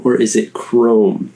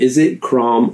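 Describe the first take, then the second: First: CHROME with a long "oh". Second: CROM with an open "ah"; short open vowel. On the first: Quoting commenters asking which pronunciation, long O. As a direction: say Chrome to rhyme with "home". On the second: Quoting commenters asking which pronunciation, open vowel. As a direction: say Crom to rhyme with "Tom". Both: Retold or imitated. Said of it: "How do you say it?".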